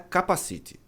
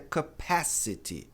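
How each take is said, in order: First: It is said with Portuguese-like stress and sounds. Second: It is said with English stress and sounds. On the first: The speaker calls it wrong. "A pronúncia de capacidade não é capacity" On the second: The speaker calls it right. "A pronúncia correta é capacity"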